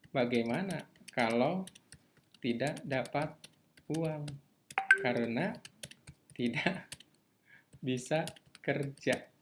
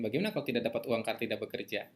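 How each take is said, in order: First: Voicing a fear, slowly. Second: Fast, rattled-off fear. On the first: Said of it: "Ada yang takut kayak gitu?". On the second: Retold or imitated. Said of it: "Ada ketakutan macam".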